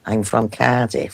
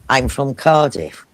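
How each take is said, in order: First: It is said in a broad local Cardiff accent. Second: It is said in a posh, refined accent. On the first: A local working person is speaking. "Cardiff people say" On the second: An upper-class person is speaking. "Posh people say"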